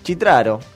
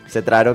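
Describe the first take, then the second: First: The name is pronounced the Italian way. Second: The name is pronounced the Argentine Spanish way. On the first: "En italiano sí" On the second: "acá en argentino es Cetraro, que es claro. Como se lee"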